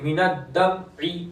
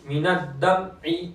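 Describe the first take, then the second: The two takes are said the same way.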